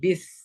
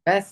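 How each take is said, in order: First: The vowel is a thin 'i' sound. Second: The vowel is an open 'e' sound. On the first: The speaker calls it right. "पढ़ना है B आई S." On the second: The speaker calls it wrong. "बेस्ट नहीं"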